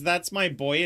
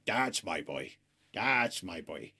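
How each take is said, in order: First: Said in the usual way. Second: Much lower, quieter Henry impression; deep, hushed mock Henry praising his dog; imitating Henry. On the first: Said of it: "Henry says". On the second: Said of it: "the funniest way he says it".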